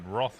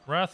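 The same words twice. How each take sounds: First: The word is said in an English pronunciation. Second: The word is said in an American pronunciation. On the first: "Wrath is the English version" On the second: "wrath is the American version"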